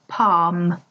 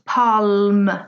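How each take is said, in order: First: The L is not pronounced in the word. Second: The L is pronounced in the word. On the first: The speaker calls it right. "The L is not pronounced" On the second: The speaker calls it wrong. "You do not say palm"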